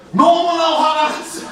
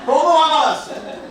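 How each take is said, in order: First: 너무나 hit high and loud, stretched out; stress on 너무나. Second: 화가 hit high and loud with a laugh, falling at the end; stress on 화가. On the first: Preacher recalling childhood anger, 너무나 shouted high. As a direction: punch 너무나 with mock outrage. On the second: Preacher repeating his anger to the congregation, 화가 stressed. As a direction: lean on 화가, laughing through it. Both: Acted.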